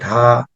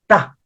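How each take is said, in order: First: The first consonant is said softly and lightly. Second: The first consonant is doubled and said strongly. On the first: "부드럽게" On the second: "자음을 두 번을 내서"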